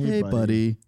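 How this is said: It sounds ominous, like bad news is coming.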